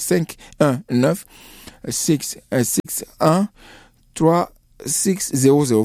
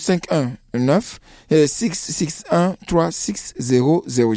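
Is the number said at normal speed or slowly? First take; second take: slowly; normal. First: The number is said more slowly. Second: The number is said at normal speed.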